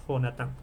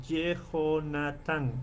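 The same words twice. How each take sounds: First: Jonatán said directly, jo-na-TÁN, without the middle vowel; quick contracted demo of Jonatán; short form. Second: Yehonatán slowly with the middle vowel, ye-ho-na-TÁN; stretched teaching demo of Yehonatán; full Hebrew name. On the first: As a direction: drop the small vowel in Jonatán. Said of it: "pronunciaremos directa". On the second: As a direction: sound out Yehonatán with the small vowel. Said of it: "si no pronunciamos esta, esta vocal". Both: Shown as a demonstration.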